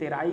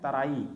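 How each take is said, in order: First: The first vowel sounds like 'eh'. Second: The first vowel sounds like 'uh'. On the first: The speaker calls it wrong. "T E R A आई लिखा है" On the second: The speaker calls it right. "पर इसका pronunciation है तराई"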